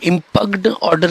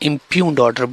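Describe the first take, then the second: First: The word is said with a hard g sound. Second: The word is said without a hard g sound. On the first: The speaker calls it wrong. "इम्पग्ड order नहीं बोलते" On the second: The speaker calls it right. "इम्प्यून्ड order बोलते हैं"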